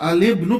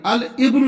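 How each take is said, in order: First: The l links straight into the following vowel. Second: The following vowel starts separately after al. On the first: The speaker calls it right. "अलिब्नु पढ़ेंगे" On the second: The speaker calls it wrong. "नहीं पढ़ेंगे"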